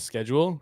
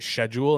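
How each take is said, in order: First: It is said with an American pronunciation. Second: It is said with a British pronunciation.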